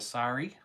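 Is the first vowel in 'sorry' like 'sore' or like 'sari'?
sari. The first vowel is an open 'sari' sound. This is how people elsewhere say it.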